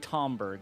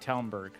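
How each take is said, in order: First: The first syllable sounds like 'tom'. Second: The first syllable sounds like 'town'. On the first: The speaker calls it wrong. "they don't say Tomberg" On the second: The speaker calls it right. "they say Townberg"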